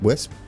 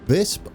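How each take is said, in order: First: The name begins with a W sound. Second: The name begins with a V sound. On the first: The speaker calls it wrong. "I've been calling it Wisp" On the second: The speaker calls it right. "I've been informed, is how you pronounce it"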